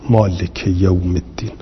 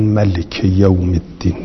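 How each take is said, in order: First: مالک said with a long ā, maa-lik yawm ad-din; reading maalik. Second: ملک said with a short a, ma-lik, no alif; reading malik. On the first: Teacher showing students the reading مالک with long alif. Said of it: "این چهار نفر قرائت کردن مالک". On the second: Teacher showing students the reading ملک without the alif. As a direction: keep ملک short, no long vowel after m. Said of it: "به غیر الف". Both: Shown as a demonstration.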